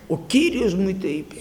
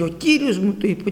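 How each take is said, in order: First: Whispered, imitating a prophet who frightens people; ominous whisper. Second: Said in the usual way. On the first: Preacher imitating a false prophet scaring souls, mock ominous whisper. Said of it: "και φόβιζε". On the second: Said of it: "Όλο έτσι έλεγε".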